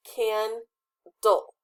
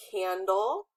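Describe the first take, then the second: First: Candle broken slowly into "can" and "dle"; split into syllables. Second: Said in the usual way. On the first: Shown as a demonstration. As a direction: say candle as two separate beats, can, dle. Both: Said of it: "split them correctly".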